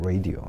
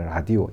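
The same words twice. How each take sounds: First: It is said with an English pronunciation. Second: It is said with a Korean pronunciation. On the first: "영어 발음으로는 라디오죠" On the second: "우리는 이제 라디오 이렇게 예, 철자 그대로 읽어내지요"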